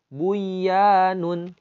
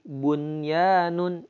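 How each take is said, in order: First: The n sound is dropped before the y. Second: The n sound is clearly kept before the y. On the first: The speaker calls it wrong. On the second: The speaker calls it right.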